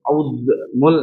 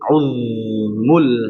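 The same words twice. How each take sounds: First: The z sound is released with a bounce. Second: The z sound is held smoothly and continuously. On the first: The speaker calls it wrong. "Kalau dilepas deh uzmul nah, jadi kolak-kolak lagi" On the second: The speaker calls it right. "Uz biarkan lidah ini jadi terus tetap terus. Nah gitu"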